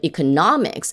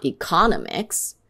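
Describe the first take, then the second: First: "economics" as e-co-NOM-ics; correct stress. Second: "economics" as e-CON-o-mics; wrong stress. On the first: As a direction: stress the third syllable of "economics". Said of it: "But economics is not economics". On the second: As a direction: shift the weight in "economics" to the second syllable. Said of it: "is not". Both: Shown as a demonstration.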